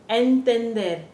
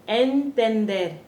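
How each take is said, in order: The two takes are said the same way.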